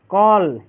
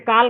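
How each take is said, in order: First: The vowel is an open rounded 'aw' sound. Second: The vowel is an open 'aa' sound. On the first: The speaker calls it right. "यहाँ पे sound आ रहा है कॉल" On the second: The speaker calls it wrong. "काल का sound नहीं आ रहा है"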